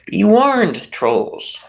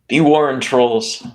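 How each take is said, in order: First: It is said in a dramatic actor voice. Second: It is said in his normal voice.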